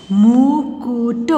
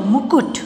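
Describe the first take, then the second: First: मुकुट very slow, sound by sound; syllable by syllable. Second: Said in the usual way. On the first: Shown as a demonstration. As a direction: stretch मुकुट into held syllables. (मुकुट को तोड़-तोड़ कर, धीरे) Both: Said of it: "sound pronounce करके देख लीजिए".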